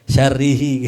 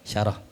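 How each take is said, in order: First: The word ends with the syllables 'rihi'. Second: The word ends with the syllable 'rah'. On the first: The speaker calls it wrong. "jangan dibaca-baca syarihi" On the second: The speaker calls it right. "namanya apa? Syarah"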